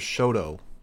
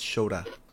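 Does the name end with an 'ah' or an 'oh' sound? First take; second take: oh; ah. First: The name ends with an 'oh' vowel. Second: The name ends with an 'ah' vowel. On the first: The speaker calls it wrong. "they kept pronouncing his name as Shoto" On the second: The speaker calls it right. "It's Shota"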